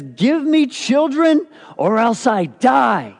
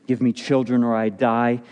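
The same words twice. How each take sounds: First: Slow, higher and louder desperate cry; angry demand. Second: Said in the usual way. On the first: Acted. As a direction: plead like a barren wife at the end of her rope. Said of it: "she's angry at her husband". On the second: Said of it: "she marches to Jacob and says this".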